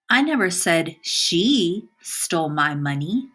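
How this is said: The word "she" carries the stress. Somebody else did it. "By emphasizing the word she"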